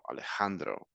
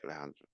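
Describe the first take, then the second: First: The name is said with clear, open articulation. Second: The name is mumbled with little mouth movement. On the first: The speaker calls it right. "el nombre de, de Alejandro es Alejandro" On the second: The speaker calls it wrong. "I'm not gonna say Alejandro"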